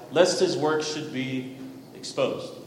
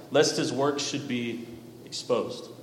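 Both takes have the same delivery.

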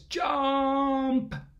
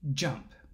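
First: The word is said at shouting volume. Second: The word is said at normal volume. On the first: "he yelled with the top of his lungs" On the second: "he said to the flea"

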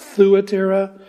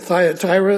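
First: The name is pronounced the Greek way. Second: The name is pronounced the anglicized way. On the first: "my Greek lexicon said it should be pronounced Thuatira" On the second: "I grew up pronouncing it Thyatira. I'm going to stick with that"

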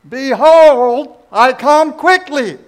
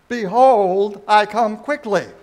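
First: It is said with maximum force and loudness. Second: It is said with more force and loudness.

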